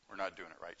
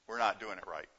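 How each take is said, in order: First: "We're not doing it right" repeated much softer, "not" still marked; quiet echo. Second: "not" in "we're not doing it right" leaned on, falling at the end; stress on not. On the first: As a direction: let the repeat sink, almost to yourself. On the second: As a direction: hit "not" firmly, then let it drop. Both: Shown as a demonstration.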